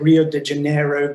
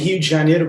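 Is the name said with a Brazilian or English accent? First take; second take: English; Brazilian. First: It is said with an English accent. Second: It is said with a Brazilian Portuguese accent.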